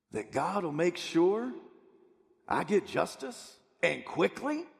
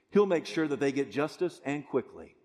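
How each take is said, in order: First: "quickly" rising sharply into a question; pause, then lift "quickly" as if unsure it is true. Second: "justice and quickly" stated firmly with a falling end; bold statement. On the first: Preacher voices doubters asking about God's promise, questioning. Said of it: "who ask the question, "Is that a true statement?". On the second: Preacher quotes Jesus's promise to the congregation, bold statement. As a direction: land "quickly" as a settled statement. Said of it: "He makes a bold statement". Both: Acted.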